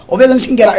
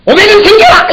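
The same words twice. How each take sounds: First: Said in the usual way. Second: Much higher and louder, a hammed-up "오백 원 생겨라!" shout; mock miracle command. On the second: Preacher jokingly commanding coins from the pulpit, loud and high. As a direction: pretend to summon a coin with a booming shout.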